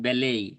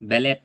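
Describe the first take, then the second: First: The word ends in a vowel, without t. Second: The word ends with a clear t sound.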